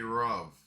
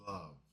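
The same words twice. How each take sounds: First: The first sound is not a clear L. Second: The first sound is a clear L. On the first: "they would say"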